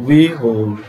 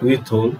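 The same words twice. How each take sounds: First: "withhold" slowly as "wi-hold", no hard t; British pronunciation. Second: "withhold" with a hard t-like "th", as "wit-hold"; incorrect th pronunciation. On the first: Teacher correcting students, "withhold" slowly as "wi-hold". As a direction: glide from "wi" straight into "hold" in "withhold". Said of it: "it's withhold". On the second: Teacher showing students what to avoid, "withhold" as "wit-hold". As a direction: sound a stop before "hold" in "withhold". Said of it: "It's not withhold". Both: Shown as a demonstration.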